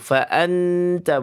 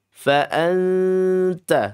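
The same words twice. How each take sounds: First: The n is pronounced fully and joined on. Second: The n is hidden as a light nasal sound. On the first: The speaker calls it wrong. "jangan jangan menyatu. Fa'anta bukan" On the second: The speaker calls it right. "Seperti N tapi belum N"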